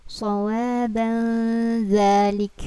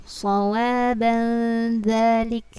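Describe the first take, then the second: The two takes are said the same way.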